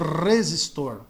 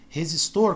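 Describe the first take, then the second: First: The first R is strong and marked. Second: The first R is soft and light. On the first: This is how some other regions say it. "o R no começo é mais acentuado" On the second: This is how São Paulo speakers say it. "como a gente pronuncia aqui"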